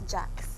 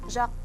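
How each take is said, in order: First: The name is said as English Jax. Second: The name is said with French pronunciation. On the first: This is what family and friends call her. "growing up, it's Jax for me and my friends and my family" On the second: This is the name's proper original form. "Jacques siya supposedly"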